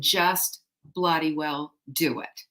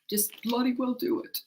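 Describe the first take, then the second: First: Slow, firm delivery; slow, no-nonsense instruction; emphatic fatherly order. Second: Put-on higher, softer English accent; lightly put-on English accent, pitched up; father's English accent. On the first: Shown as a demonstration. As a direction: spell it out slowly and firmly. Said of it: "That's from my father". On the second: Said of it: "in his English accent".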